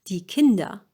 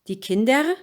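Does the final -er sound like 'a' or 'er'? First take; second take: a; er. First: The final -er is reduced to an 'a' sound. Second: The final -er is said fully as written. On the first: The speaker calls it right. "you make it an a" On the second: The speaker calls it wrong.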